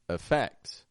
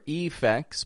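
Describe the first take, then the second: First: The first vowel is a reduced schwa. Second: The first vowel is a full, clear vowel. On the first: The speaker calls it right. "Yes, that E in the beginning. Uh" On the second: The speaker calls it wrong. "I'm not saying F X or effects"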